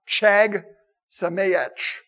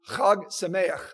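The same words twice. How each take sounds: First: It begins with an English ch sound. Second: It begins with a throaty, raspy sound. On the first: The speaker calls it wrong. "that's not Chag Sameach" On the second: The speaker calls it right. "It's Chag Sameach"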